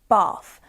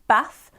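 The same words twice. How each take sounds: First: The vowel is a long 'ah' sound. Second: The vowel is a short 'a' sound.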